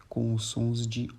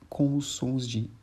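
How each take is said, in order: The two takes are said the same way.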